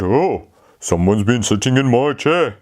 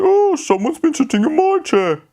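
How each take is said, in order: First: Said in the usual way. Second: High Mummy Bear voice; a surprised mother bear, pitched up high. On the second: Acted. Mummy Bear's line.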